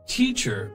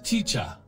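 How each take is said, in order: First: The final R sound is pronounced. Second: The final R sound is dropped.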